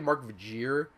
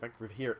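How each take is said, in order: First: The surname's middle consonant is a J sound. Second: The surname's middle consonant is an H sound. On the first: The speaker calls it wrong. "I used to say Mark Vajir" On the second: The speaker calls it right. "I believe that's the way you pronounce it"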